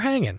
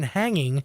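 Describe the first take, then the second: First: The final g sound is dropped. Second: The final g sound is pronounced. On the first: "drop the G" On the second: "instead of saying hanging"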